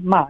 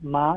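First: The pitch falls sharply from high to low. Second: The pitch rises from middle to high. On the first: "and then ma is the fourth tone" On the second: "ma is the second tone"

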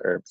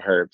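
First: The word begins with a vowel, no h sound. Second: The word begins with an audible h sound. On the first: The speaker calls it wrong. "not herbs. That's ridiculous" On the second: The speaker calls it right. "we should say herbs"

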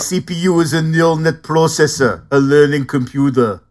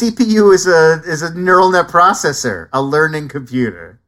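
First: It is said in a put-on character voice. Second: It is said in the speaker's ordinary voice.

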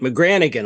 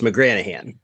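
First: The second G sound is pronounced. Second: The second G sound is silent. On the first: The speaker calls it wrong. "I get McGranaghan a lot" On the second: The speaker calls it right. "but it's McGranaghan. ... there's a silent G in there"

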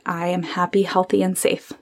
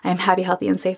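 First: It is said slowly and calmly. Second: It is said fast and rushed.

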